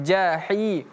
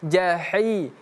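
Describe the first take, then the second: Both takes have the same delivery.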